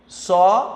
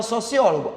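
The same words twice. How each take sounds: First: Syllable by syllable. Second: Said in the usual way. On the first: Shown as a demonstration. Teacher dividing the word for the class, "sociólogo" in separated syllables. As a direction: say "sociólogo" with a clear pause between syllables. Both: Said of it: "A separação silábica vai ser".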